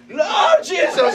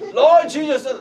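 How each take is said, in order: First: It is said wildly, like someone drunk. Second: It is said in a calm, plain way.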